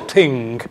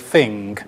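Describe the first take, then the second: First: It starts with a t sound, Dublin style. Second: It starts with an f sound, London style.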